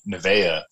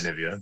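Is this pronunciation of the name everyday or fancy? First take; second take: fancy; everyday. First: It uses the posh, refined-sounding pronunciation. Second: It uses the familiar everyday pronunciation. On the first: The speaker sounds posh or pretentious. "you're definitely saying it with your pinky out" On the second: This is the habitual way of saying it. "I've always said Nivea"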